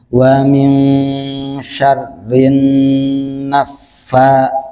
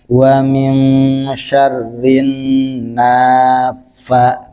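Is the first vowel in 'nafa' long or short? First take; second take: short; long. First: The vowel after the n is kept short. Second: The vowel after the n is drawn out long. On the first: The speaker calls it right. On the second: The speaker calls it wrong. "ini panjang. Ya itu salah ya"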